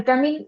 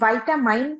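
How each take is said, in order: First: The first syllable is 'vee', the last 'min'. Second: The first syllable is 'vy', the last 'mine'. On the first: "অনেক সময় আমরা ভিটামিন pronunciation করি, এইভাবে pronounce করি" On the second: "আবার অনেক সময় ভাইটামাইন, হুম, ভাইটামাইন প্রোনাউন্স করি"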